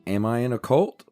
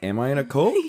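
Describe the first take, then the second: First: The voice stays flat at the end. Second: The voice rises at the end. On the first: The speaker calls it wrong. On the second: The speaker calls it right.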